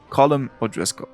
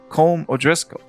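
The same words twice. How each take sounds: First: The first name is said as two syllables. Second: The first name is said as one syllable.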